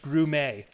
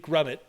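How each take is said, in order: First: The name is said the French way. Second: The name is said the British way.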